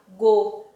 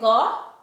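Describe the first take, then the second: First: The vowel is closed, like 'ô'. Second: The vowel is open, like 'ó'. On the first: "ou então o som fechado" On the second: "Eu vou pronunciar com o som ou o som aberto"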